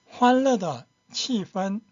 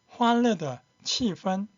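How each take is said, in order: The two takes are said the same way.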